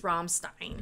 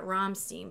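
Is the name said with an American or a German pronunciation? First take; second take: German; American. First: The name is said with a German pronunciation. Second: The name is said with an American pronunciation. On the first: The speaker calls it right. "but it's Rammstein" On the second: The speaker calls it wrong. "that's how Americans say it"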